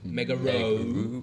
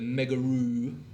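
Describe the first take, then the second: First: The name ends with an 'oh' sound. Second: The name ends with a long 'oo' sound. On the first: The speaker calls it right. "It's an O, one O" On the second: The speaker calls it wrong. "I always pronounce it wrong"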